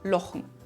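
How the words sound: The first vowel is an o sound.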